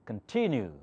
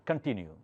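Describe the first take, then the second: First: The stress falls on the middle syllable. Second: The stress falls away from the middle syllable. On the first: The speaker calls it right. "I said continue because T has the accent" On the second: The speaker calls it wrong. "or continue"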